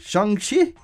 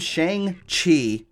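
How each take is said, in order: First: The name is said the way the film says it. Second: The name is said with an American pronunciation. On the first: "pronounced in the movie, it's more like Shang-Chi" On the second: "I called him Shang-Chi before"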